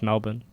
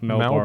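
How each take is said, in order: First: It is said in an Australian accent, R dropped. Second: It is said in an American accent, R pronounced.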